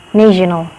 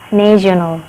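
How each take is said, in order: First: It is pronounced with English sounds and vowels. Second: It is pronounced with English sounds and vowels.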